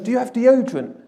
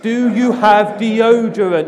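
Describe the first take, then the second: First: It is said at a normal pace and volume. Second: It is said slowly and more loudly.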